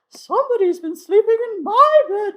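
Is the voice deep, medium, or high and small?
medium. It is said in Mama Bear's medium voice.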